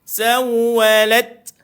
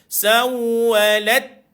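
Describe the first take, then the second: Both takes have the same delivery.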